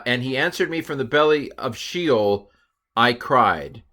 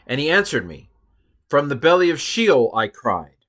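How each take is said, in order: First: "answered me" running straight on into "from the belly of Sheol"; wrong phrasing. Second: A pause after "answered me", then "From the belly of Sheol" louder and higher; corrected phrasing. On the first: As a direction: read it as one line without the break. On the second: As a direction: split it after "me" and lift the second phrase. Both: Shown as a demonstration. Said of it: "no, I'm sorry".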